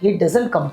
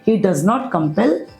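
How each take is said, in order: First: 'Does not' is shortened into one word. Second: 'Does not' is said as two full words.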